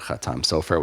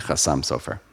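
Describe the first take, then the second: First: It has the Modern Hebrew 't' and 'a' sounds. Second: It has the Ashkenazi 's' and 'o' sounds.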